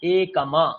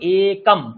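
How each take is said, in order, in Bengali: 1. শব্দটি m-এর পরে একটি স্বরধ্বনি দিয়ে শেষ হয়। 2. শব্দটি খালি m ধ্বনিতে শেষ হয়। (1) "এরকম তো বলি না" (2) "মাকারের হাফ উচ্চারণ হয়ে শেষ হয়ে যাবে"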